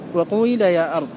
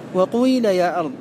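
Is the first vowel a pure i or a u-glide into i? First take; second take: u-glide; u-glide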